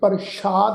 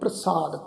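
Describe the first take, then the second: First: The word is said with an 'sh' sound. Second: The word is said with an 's' sound. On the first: The speaker calls it wrong. "ਇਹਨੂੰ ਪ੍ਰਸ਼ਾਦ ਨਹੀਂ ਕਰਨਾ" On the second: The speaker calls it right. "ਇਹਦਾ ਉਚਾਰਨ ਹੋਏਗਾ ਪ੍ਰਸਾਦ"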